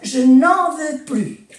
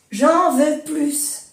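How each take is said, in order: First: "Je n'en veux plus" ends on "ply", no S; silent S in plus. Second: "J'en veux plus" said slowly with "plus" as "plys"; sounded S in plus. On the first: Teacher showing the negative "plus" without the S. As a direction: cut "plus" short with no S. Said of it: "negación no S". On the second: Teacher modelling "j'en veux plus" slowly with the S. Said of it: "Allí no se pronuncia la S". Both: Shown as a demonstration.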